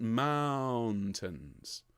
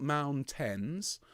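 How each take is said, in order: First: "mountains" with a long ow and light tns; "mountains" as mowwwn-tns; long ow, soft ending. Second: "mountains" with a clear TENS ending; "mountains" with the second vowel too open; full second syllable. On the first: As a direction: stretch the first syllable of "mountains", let the second fall away. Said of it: "second syllable is quieter and slightly softer". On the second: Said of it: "it's not mountains". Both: Shown as a demonstration.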